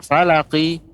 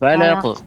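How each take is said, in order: First: It ends with a full i vowel. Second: It ends with only a light echoing bounce. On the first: The speaker calls it wrong. "juga bukan falaqi" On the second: The speaker calls it right. "pantulan saja"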